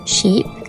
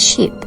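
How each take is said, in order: First: The vowel is held long. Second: The vowel is cut short. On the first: The speaker calls it right. "long vowel" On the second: The speaker calls it wrong. "short vowel"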